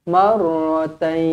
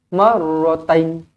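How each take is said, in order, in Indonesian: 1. Vokal akhir ditahan panjang saat berhenti. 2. Vokal akhir dipotong pendek saat berhenti. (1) "Dia kena paling-paling pendek pun dua harakat" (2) "Jangan pula berhenti marratain"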